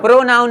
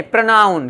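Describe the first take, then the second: First: प्रोनाउन with a full "o" in the first syllable, "pro-naun"; wrong pronunciation demo. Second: प्रोनाउन with a short schwa, "pruh-naun"; corrected pronunciation. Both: Shown as a demonstration. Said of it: "प्रोनाउन नहीं, प्रोनाउन".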